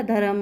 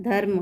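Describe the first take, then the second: First: धर्म stretched to "dha-ram", vowel after र; full र. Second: धर्म with a half र, no vowel after it; half-pronounced र. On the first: Teacher shows what would happen otherwise, धर्म with a full र. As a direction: say धर्म as two syllables with a full "ra". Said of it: "अगर पूरा होता तो". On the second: Teacher shows pupils the correct word, र in धर्म said half. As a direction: say धर्म as "dharm", र joined straight to म. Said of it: "उसका उच्चारण आधा". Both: Shown as a demonstration.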